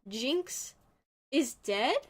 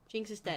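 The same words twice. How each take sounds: First: The line is said lightly, without sternness. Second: The line is said in a stern tone. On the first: The speaker calls it wrong. "Not with that inflection" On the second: The speaker calls it right. "like stern"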